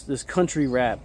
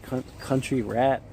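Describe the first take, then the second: First: Said in the usual way. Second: Incredulous. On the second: Retold or imitated. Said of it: "and I was like".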